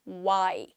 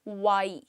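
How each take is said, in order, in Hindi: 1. यह गोल होंठों से शुरू होता है, w ध्वनि। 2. यह गोल होंठों से शुरू होता है, w ध्वनि।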